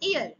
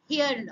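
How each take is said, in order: First: The word starts with a vowel, no h sound. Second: The word starts with an audible h sound. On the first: The speaker calls it right. "এইচ silent" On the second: The speaker calls it wrong. "এখানে কিন্তু উচ্চারণ হিয়ার নয়"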